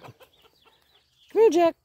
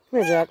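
First: Much higher, stretched-out rising call; way up high calling the dog by name; high sing-song call. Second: Said in the usual way. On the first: Real, not acted. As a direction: sing it up high to lure him.

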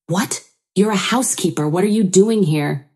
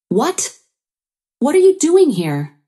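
First: Mildly insistent challenge. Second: High, louder indignant challenge; angry questioning. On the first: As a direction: insist with only a touch of indignation. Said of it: "my mother-in-law insisted". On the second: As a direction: demand an answer, pitch shooting up. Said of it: "Freya questioned angrily". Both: A narrator's reading.

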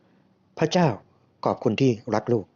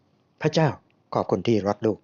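First: Measured, with a pause after the opening address; slow prayer prompt. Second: Slow, careful repeat of a prayer; slowly repeating along. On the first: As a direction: lead the prayer phrase by phrase. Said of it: "พูดช้าๆทีละประโยค". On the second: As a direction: follow the prompt phrase by phrase. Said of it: "ผมก็ค่อยๆพูดตาม". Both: A narrator's reading.

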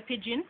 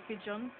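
First: "pigeon" said PID-jin, short i ending; Jamaican pronunciation. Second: Said in the usual way. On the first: Shown as a demonstration. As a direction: Jamaican "pigeon", rhyming with gin. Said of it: "And we say pigeon". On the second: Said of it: "you guys would say pigeon".

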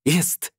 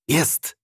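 First: Higher, rising cry of joy; excited shout. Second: Shouted joy. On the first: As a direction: cheer it out as the engine catches. (radosny okrzyk, wyżej, z podniesieniem) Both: A narrator's reading. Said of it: "krzyknął".

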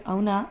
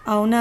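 First: Said in the usual way. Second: The same word again, louder and sharper; a louder repeat of the word అవునా; loud retort. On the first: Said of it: "అని అంటూ". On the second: A narrator's reading. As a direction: fling it back at them loudly. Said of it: "అని అక్కడ ఉన్న".

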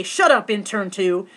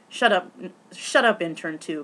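First: Slow, louder, mildly mean chant; mock nasty voice. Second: Said in the usual way. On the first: Host telling everyone to taunt the intern, mock nasty. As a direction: imitate a mean crowd prompt, drawn out. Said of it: "in your meanest, nastiest voice say". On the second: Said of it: "I absolutely refused to say".

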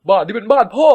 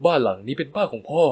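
First: Higher, louder, rising on พ่อ; angry shout. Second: Said in the usual way. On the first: A narrator's reading. Son shouting at stepmother that it's dad's house. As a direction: throw บ้านนี้เป็นบ้านพ่อ at her loudly.

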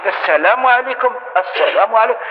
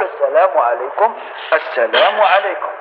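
First: Brisker salam at usual pace; the version to avoid; wrong salam demo. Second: Gentle turning salam. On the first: Teacher showing the rejected salam, quicker and brisker. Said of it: "هذه ما كاش منها". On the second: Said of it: "بالتفاتة لينة". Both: Shown as a demonstration.

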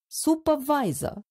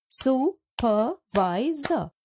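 First: Said in the usual way. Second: Supervisor drawn out as su-per-vi-sor; slow syllables. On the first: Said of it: "Let's split the given words into syllables". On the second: Shown as a demonstration. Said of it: "can be broken into four".

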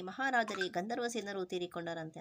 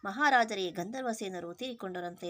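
First: Mildly stretched words, as if breaking big news; lightly dramatic, tongue-stretched delivery; a hint of a gossiping minister's gasp; drawn-out sensational telling. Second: A minister's loud, theatrical cry of bad news; dramatic exclamation. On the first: Shown as a demonstration. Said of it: "ನಾಗೆ ಉದ್ದ ಚಾಚಿ ಮಾತಾಡ್ತಲ್ಲ, ಆ ಥರ ಮಾತಾಡ್ತಾ". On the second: A narrator's reading. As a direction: stretch it out like breaking sensational news. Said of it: "ತನ್ನ ನಾಲಿಗೆಯನ್ನು ಉದ್ದ ಮಾಡಿ".

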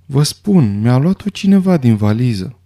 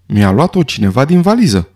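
First: Understated, powerless insistence; helpless, weak voice. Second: An exclamation with little added volume; mild narrated shout. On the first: Doctor facing accusing eyes, helpless and weak. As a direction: insist feebly, with little force. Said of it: "repetă neputincios cu voce slabă". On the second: Doctor finding his syringe taken, restrained cry of protest. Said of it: "strigă Armstrong". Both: A narrator's reading.

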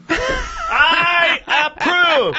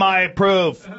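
First: Slow, high shouted I approve; drawn-out high shout. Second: Said in the usual way. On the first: Pretend.

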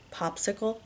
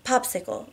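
First: Soft, amused echo as a question; quietly amused. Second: Understated breathless answer; mildly panting. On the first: Husband questions wife's odd safe word, amused. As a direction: query it softly with understated amusement. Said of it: "he says, amused". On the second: Wife picks a safe word while aroused, lightly panting. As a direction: offer it a little short of breath. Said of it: "I say, panting". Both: A narrator's reading.

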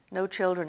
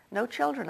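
First: Sadly. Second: Put-on a gentle questioning lift on "No children?"; surprised question. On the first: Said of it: "he said sadly". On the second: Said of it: "I asked". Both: A narrator's reading.

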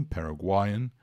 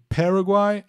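First: Paraguayan with the stress moved onto GUA; weight GUA, not the first syllable, in Paraguayan. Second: Paraguai with PA punched high and loud; stress on first syllable. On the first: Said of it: "a sílaba tônica passa a ser o gua". (Paraguayan com a tônica no GUA) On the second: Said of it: "a tônica é a primeira sílaba". (Paraguai com a tônica na primeira sílaba) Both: Shown as a demonstration.

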